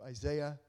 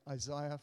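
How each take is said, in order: First: The name is said in an American accent. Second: The name is said in an Australian accent. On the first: "if you're American" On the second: "for all the Australians here"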